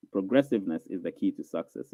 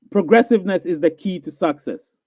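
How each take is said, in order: First: Much softer and lower, like an echo; quiet echoing repeat. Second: Said in the usual way. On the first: Shown as a demonstration. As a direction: drop it down to a hushed repeat.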